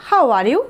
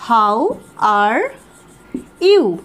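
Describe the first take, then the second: First: Said in the usual way. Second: Spaced words, you louder. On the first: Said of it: "আর simple বলতে চাইলে বলবো". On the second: Shown as a demonstration. Teacher spacing out the greeting for students. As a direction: drill it one word at a time. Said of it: "এটাকে আমরা বলতে পারি".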